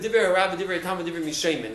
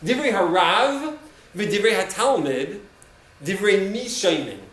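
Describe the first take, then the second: First: It is said at normal speed. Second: It is said slowly.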